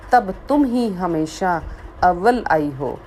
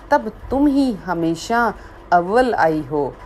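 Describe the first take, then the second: No difference in how they are said.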